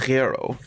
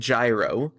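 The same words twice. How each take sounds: First: It starts with a soft, breathy Greek g. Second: It starts with a j sound. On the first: The speaker calls it right. "it's a gyro with a g, g" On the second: The speaker calls it wrong. "not a j like gyro"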